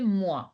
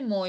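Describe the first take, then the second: First: The vowel sounds like 'wa' in 'water'. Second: The vowel sounds like 'oy' in 'boy'. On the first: The speaker calls it right. "O I is ua, so you have to say moi" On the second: The speaker calls it wrong. "You cannot say moi"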